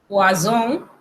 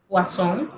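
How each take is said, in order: First: "poison" in French with a buzzed z; single S as Z. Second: "poisson" with a hissed s; double S as S. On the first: Teacher contrasting poison with fish, S voiced as Z. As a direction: say "poison" as "pwa-zon", nasal ending. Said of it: "se pronuncia como Z". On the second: Teacher contrasting fish with poison, unvoiced S sound. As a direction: say "poisson" as "pwa-son", nasal ending. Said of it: "se pronuncia como S". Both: Shown as a demonstration.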